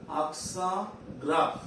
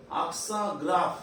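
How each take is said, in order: First: "Accent", pause, "grave"; word by word. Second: Said in the usual way. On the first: Shown as a demonstration. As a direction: dictate "Accent ... grave" slowly. Teacher repeats term in pieces.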